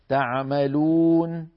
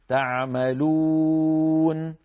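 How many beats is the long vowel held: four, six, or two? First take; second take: two; four. First: The long vowel is held for two beats. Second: The long vowel is held for four beats. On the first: "هي حركتين" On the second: "هذه أربعة"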